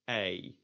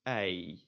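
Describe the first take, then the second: First: The vowel glides from 'eh' toward 'ee'. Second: The vowel glides from 'eh' toward 'ee'.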